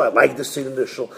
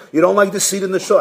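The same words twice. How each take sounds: First: Low, quick reply; rabbi's dismissive answer. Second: Quick, probing question; board questioning. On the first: Rabbi answers the board, quick low reply. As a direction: drop low and brush it off. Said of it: "He says". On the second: Board asks the resigning rabbi, quick questioning. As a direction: fire off the next question. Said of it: "So the board calls him in". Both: Acted.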